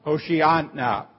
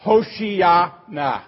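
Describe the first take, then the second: First: Said in the usual way. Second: Hoshiana slow, every syllable set apart: ho-shi-a-na; careful Hebrew Hoshiana. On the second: Shown as a demonstration. Pastor teaching the congregation the Hebrew, slowly sounded out. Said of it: "comes from a Hebrew phrase".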